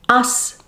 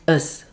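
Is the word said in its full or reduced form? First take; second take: full; reduced. First: The word is said in its full strong form. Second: The word is said in its reduced weak form.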